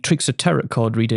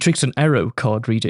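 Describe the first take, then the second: First: The word starts with a clear T sound. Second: The word starts with no T sound. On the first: The speaker calls it wrong. "I mispronounced a word in it" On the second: The speaker calls it right. "Apparently the T is silent"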